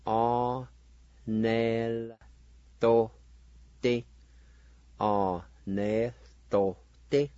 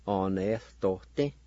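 First: "Arneltote" drawn out in separate syllables; syllable-by-syllable pronunciation. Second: "arneltote" joined into one word; whole-word pronunciation. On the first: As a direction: sound out "arneltote" slowly, pausing between parts. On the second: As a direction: say "arneltote" through without breaks. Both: Shown as a demonstration. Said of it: "like this".

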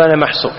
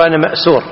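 First: محصور with ح and ص; common misusage. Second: مأسور with hamza and س; correct word. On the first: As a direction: say محصور as mahsur. (محصور بالحاء والصاد) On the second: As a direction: say مأسور as ma'sur. (مأسور بالهمز والسين) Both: Shown as a demonstration. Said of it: "والصواب المفروض يقول".

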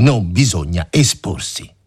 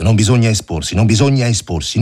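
First: "non bisogna esporsi" lento, ogni parola scandita; scandito lento. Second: "bisogna" battuto, alto e forte; predica ripetuta. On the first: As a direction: lo ripete piano e scandendo. (tenente che ripete lentamente, scandendo "non") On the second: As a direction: ammonisce con enfasi crescente. (tenente che ammonisce il soldato, insistendo su "bisogna") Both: A narrator's reading. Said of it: "L'ho da porre in musica?".

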